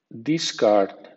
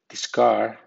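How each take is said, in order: First: The stress is on the first syllable. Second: The stress is on the second syllable. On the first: It is used as a noun. "Con acento fuerte, discount, discard, nombre" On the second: It is used as a verb. "Con acento débil, discard, verbo"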